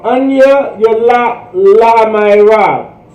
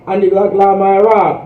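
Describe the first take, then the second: First: Anya Yalak La Mairav spoken slowly, syllable by syllable; teacher drilling Anya Yalak La Mairav at half speed; slow Hebrew model. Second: Ani Lak La Ma'arab run together quickly, syllables blended; teacher showing the quick slurred Ani Lak La Ma'arab; fast flowing version. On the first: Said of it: "So here we go". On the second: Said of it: "The faster you get". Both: Shown as a demonstration.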